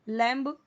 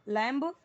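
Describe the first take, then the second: Both takes have the same delivery.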